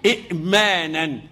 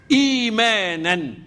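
First: إئمانا with a glottal stop after short i; original still hamza. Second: إيمانا slowly, with a long opening ee; substituted long vowel. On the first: Teacher shows the origin, إئمانا with a caught hamza. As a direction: break إئمانا on the hamza, said slowly. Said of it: "أجي على الهمزة الساكنة". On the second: Teacher gives the word as read, إيمانا with long slow ee. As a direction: stretch the ee in إيمانا, no inner stop. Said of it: "أصلها". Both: Shown as a demonstration.

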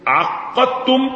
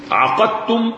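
First: عقدتم high and slow, ق held doubled; doubled qaf. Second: عقدتم higher, with an undoubled ق; single light qaf. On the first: Teacher contrasts the one-meaning reading, عقدتم with long doubled qaf. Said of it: "قراءة التجديد". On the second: Teacher quotes the ambiguous reading, عقدتم with light single qaf. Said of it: "فقراءة التخفيف". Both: Shown as a demonstration.

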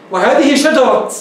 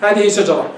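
First: شجرة slowly, ending on t; pausal ta. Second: شجرة ended on h; pausal ha. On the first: Teacher shows the allowed variant, pausal t. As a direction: draw out وهذه شجرة and stop on t, not h. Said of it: "يجوز، لكن الأفصح". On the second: Teacher gives the more eloquent form, pausal h. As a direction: stop on شجرة with ة as h, no t. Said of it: "لكن الأفصح". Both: Shown as a demonstration.

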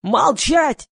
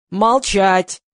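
First: High, loud yell for silence. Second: Loud one-word bark; forceful, loud command; barked order. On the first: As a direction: shriek the order above the hubbub. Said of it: "завопил Гриша". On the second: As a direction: bark for silence at near-usual pitch. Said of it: "гаркнул Гриша". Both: A narrator's reading.

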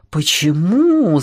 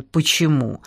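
First: Slow, musing echo of the question; ruminative, stretched-out question; thoughtful. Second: Brief, puzzled question; mildly baffled query. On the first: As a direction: draw the word out, pondering it. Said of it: "задумчиво повторил тесть". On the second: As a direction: ask it quickly, not understanding. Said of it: "не понял Иван". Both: A narrator's reading.

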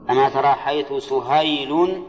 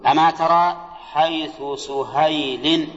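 First: Measured recitation, سهيل closing in -un; nominative ending on سهيل. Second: Slow, measured recitation, سهيل closing in -in; genitive ending on سهيل. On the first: Teacher recites the other reading of the verse, ending -un. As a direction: end سهيل as "suhaylun", with -un. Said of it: "روي أيضًا سهيل". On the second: Teacher recites the verse in the genitive reading, ending -in. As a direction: end سهيل as "suhaylin", with -in. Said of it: "على رواية الجر". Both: Shown as a demonstration.

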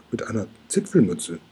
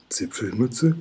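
First: Zipfelmütze said with a settled falling close; falling statement. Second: Zipfelmütze? with a rising questioning end; puzzled question. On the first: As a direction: state Zipfelmütze plainly, ending down. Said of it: "antwortet Mathilda". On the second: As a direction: echo Zipfelmütze? in disbelief, lifting the end. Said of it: "wiederholt Oskar". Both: A narrator's reading.

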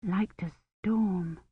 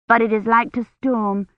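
First: Very soft, slow echo; inward thought. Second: Higher, lightly voiced little girl; child explaining. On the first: Kivrin privately mulling over the child's words, hushed thought. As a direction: murmur it slowly to yourself. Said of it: "Kivrin thought". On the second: Child warning of the coming weather, little girl's voice. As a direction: tell it plainly in a child's voice. Child's statement, later echoed in thought. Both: A narrator's reading.

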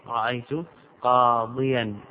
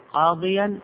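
First: Said in the usual way. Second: قاضيا said higher and louder, leaning on the ya sound; stress on the ya. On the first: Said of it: "تقول". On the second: Shown as a demonstration. Teacher to students, pointing out the kept ya in قاضيا. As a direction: hit قاضيا to show the ya stays. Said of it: "الياء ثابتة أو محذوفة؟".

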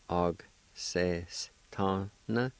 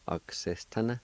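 First: Og ses ta na drawn out slowly and evenly; slow model. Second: Said in the usual way. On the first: Shown as a demonstration. Teacher modelling Og ses ta na slowly for learners. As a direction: stretch every syllable of Og ses ta na. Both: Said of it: "pronounce the G sound with the A like this".

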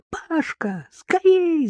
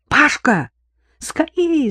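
First: Leaps high on скорей; panicked shout. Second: High, loud call down the hall; shout for help. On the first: Marina calling her brother while mother collapses, shouting. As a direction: scream for your brother. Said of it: "закричала Марина". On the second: Daughter calling her brother to their mother, shouting. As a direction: yell for your brother urgently. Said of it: "закричала она". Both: A narrator's reading.

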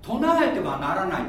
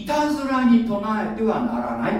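First: Said in the usual way. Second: いたずらに lifted and pressed, rest of the phrase plain; stress on いたずらに. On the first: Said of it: "いたずらに唱えてはならないって書いてあるわけ". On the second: Shown as a demonstration. Preacher correcting the misquoted commandment, stressing いたずらに. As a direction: lean on いたずらに, then finish level. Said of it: "唱えてはならないって書いてないんだよ".

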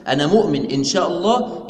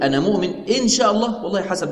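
First: "أنا مؤمن إن شاء الله" stated steadily as a confident affirmation; affirming believer. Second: "إن شاء الله" said with a lifted, uncertain pitch; doubting believer. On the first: Shown as a demonstration. Teacher voicing the correct intent, mildly assured. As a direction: say it as a settled declaration of faith. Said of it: "يعني أنا مؤمن مقر بإيماني". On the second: Retold or imitated. Teacher voicing the wrong, doubtful intent, lightly unsure. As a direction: voice the doubter who isn't sure he believes. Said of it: "لو اعتقد كده خطأ".

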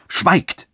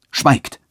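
First: A higher, rising furious command; angry again. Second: Sharp, higher angry command; furious. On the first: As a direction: cut him off in anger. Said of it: "rief der Bischof abermals". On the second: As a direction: silence him in a burst of rage. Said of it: "rief der Bischof im höchsten Zorne". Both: A narrator's reading.

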